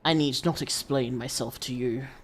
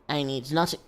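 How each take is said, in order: First: It is said in a put-on character voice. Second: It is said in the speaker's normal voice.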